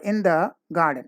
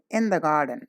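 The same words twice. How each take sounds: First: Pauses break up the words of the phrase. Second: The words flow together without any pause. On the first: The speaker calls it wrong. "that is not the way to say" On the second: The speaker calls it right. "together without any break or pause"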